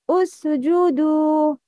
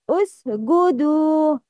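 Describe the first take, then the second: First: The consonant is a soft j sound. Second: The consonant is a hard g sound. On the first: The speaker calls it right. "Number one is right" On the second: The speaker calls it wrong. "Mistake will be occurred when pronouncing Jim as"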